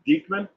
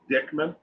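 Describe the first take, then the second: First: The first syllable sounds like 'deek'. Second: The first syllable sounds like 'dick'. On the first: The speaker calls it right. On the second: The speaker calls it wrong.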